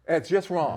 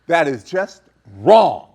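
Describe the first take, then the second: First: Said in the usual way. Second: Slow and loud, "wrong" hit hard; emphatic loud. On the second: Real, not acted. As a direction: declare it firmly.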